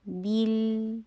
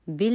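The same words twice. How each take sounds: First: بل as a held "beel"; higher, drawn-out "beel" on بل; clear ee sound. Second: بل as a short "bil"; clipped vowel in mispronounced بل; wrong short vowel. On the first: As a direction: say بل with a long clean "ee". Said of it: "بی کی ساؤنڈ آئے گی". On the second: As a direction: say بل with a lax "i", no ee. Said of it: "بل نہیں ہے". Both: Shown as a demonstration.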